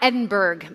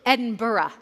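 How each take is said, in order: First: It is said with one syllable fewer. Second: It is said with an extra middle syllable. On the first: The speaker calls it wrong. "if you say it incorrectly" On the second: The speaker calls it right. "there's another syllable there that is hard to see"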